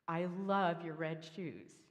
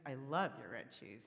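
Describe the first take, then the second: First: The stress is on the word shoes. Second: The stress is on the word red.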